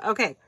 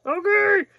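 First: Said in the usual way. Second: High, loud squeal of anticipation; excited squeal. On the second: Real, not acted. Excited squeal before opening.

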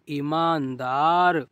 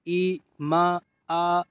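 First: ईमानदार joined up, falling at the end; blended reading. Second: ईमानदार broken into separate sounds; sounded out. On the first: Teacher completing the word for learners, blended reading. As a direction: read ईमानदार whole after sounding it out. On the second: Teacher showing learners easy reading, ईमानदार sounded out. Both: Shown as a demonstration. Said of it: "इस तरीके से आप पढ़िए".

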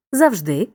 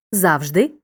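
First: "завжди" stressed on final ди; stress on second syllable. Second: "завжди" stressed on зав; stress on first syllable. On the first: Teacher showing second accepted variant, stress on ДИ. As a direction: hit the end, завжДИ. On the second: Teacher showing first accepted variant, stress on ЗАВ. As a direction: hit the start, ЗАВжди. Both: Shown as a demonstration. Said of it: "Подвійний наголос мають такі слова".

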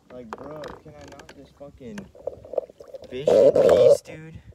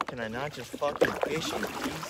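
First: A sudden loud yell on fish in peace; fed up, blurt it out loud; exasperated outburst. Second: Said in the usual way. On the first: Real, not acted. Frustrated at gators while fishing.

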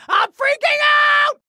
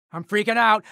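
First: High, loud, drawn-out panicked scream; full-blown panic. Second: Said in the usual way. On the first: Acted. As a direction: scream it out, stretching the last word. Third, peak of panic.

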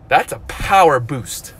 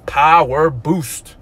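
First: Said in the usual way. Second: "Power boost" stretched slow, each word leaned on; drawn-out hype. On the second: Real, not acted. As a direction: sell "Power boost" slowly like a slogan. Repeats the phrase with weight.

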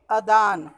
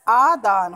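First: अदान with a short first vowel; wrong pronunciation. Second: आदान with a long opening "aa"; correct pronunciation. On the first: Teacher shows pupils the faulty word, short-vowel अदान. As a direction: say अदान opening on a brief "uh". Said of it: "वो अशुद्ध है". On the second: Teacher corrects the faulty word, long-vowel आदान. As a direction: stretch the first vowel of आदान. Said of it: "अदान नहीं होता". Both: Shown as a demonstration.

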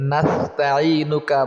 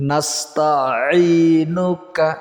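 First: Slow mispronounced নাস্তাঈনুকা without a throat stop; common mispronunciation. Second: Slow নাস্তাঈনুকা with the আইন pressed from the throat; drawn-out নাস্তাঈনুকা, throat-pressed আইন, falling end; correct pronunciation. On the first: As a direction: say নাস্তাঈনুকা the careless way many people do. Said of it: "অনেকেই বলে". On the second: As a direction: model নাস্তাঈনুকা properly for students to copy. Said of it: "আইন এবং হা হলকের মাঝখান থেকে উচ্চারণ হয়". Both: Shown as a demonstration.

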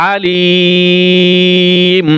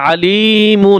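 First: আলিম with a very long "liii" closing on bare m; stopped reading, madd. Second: আলিমুন with the full "mun" ending sounded; spelled-out ending. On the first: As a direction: hold the "li" of আলিম, then shut on m. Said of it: "শুধু মিম উচ্চারণ হবে". (লম্বা টানে আলিম, শেষে শুধু মিম) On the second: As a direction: say আলিমুন through to a clear "-mun". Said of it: "বানানোর সময় মুন হবে". (শেষে পুরো "মুন" উচ্চারণে আলিমুন) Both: Shown as a demonstration.

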